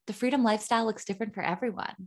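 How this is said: It is said in a polished podcast-host voice.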